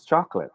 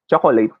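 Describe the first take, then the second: First: CHOCOLATE in two syllables, chok-lit; correct pronunciation. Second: CHOCOLATE in three syllables, cho-ko-leyt; Filipino pronunciation. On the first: Teacher modelling the proper word, chocolate as chok-lit. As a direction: drop the middle vowel of "chocolate". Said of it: "it should be pronounced as". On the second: Teacher showing students how Filipinos say it, chocolate as cho-ko-leyt. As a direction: say "chocolate" with a full "late" at the end. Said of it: "We Filipinos say this as". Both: Shown as a demonstration.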